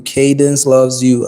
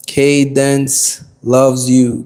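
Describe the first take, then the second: First: Said in the usual way. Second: Slow, stretched shout-out with "loves" leaned on; drawn out. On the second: Real, not acted. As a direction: draw the greeting out lazily. Greeting a chat viewer.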